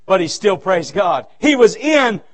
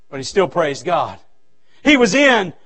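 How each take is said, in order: Both takes have the same delivery.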